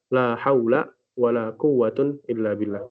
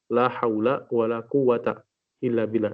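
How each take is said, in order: First: First noun ends in a, second in un. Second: Both nouns end in a short a. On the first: "boleh difathahkan yang pertama dan dirafa'kan yang kedua" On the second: "jadi difathahkan kedua-duanya"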